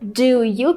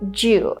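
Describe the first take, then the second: First: Both words are said fully and separately. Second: The two words blend into one short syllable. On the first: "instead of just saying do you" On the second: "people say ju"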